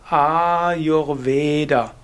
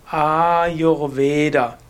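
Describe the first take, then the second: The two takes are said the same way.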